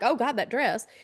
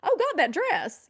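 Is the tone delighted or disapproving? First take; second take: disapproving; delighted. First: It sounds shocked and disapproving. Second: It sounds surprised and delighted. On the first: The dress looks bad. The speaker calls it wrong. "nobody wants a, a, a- a startled face and then to say something like" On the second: The dress looks wonderful. The speaker calls it right. "you want to say something positive"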